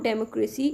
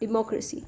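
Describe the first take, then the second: First: "democracy" starting with "dem", like democrat; mistaken pronunciation. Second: "democracy" as di-MOC-racy; correct pronunciation. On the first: Teacher showing learners what not to say, mispronounced. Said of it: "It's not democracy". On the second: Teacher correcting the common mistake, careful pronunciation. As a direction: stress the second syllable of "democracy". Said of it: "it's democracy". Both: Shown as a demonstration.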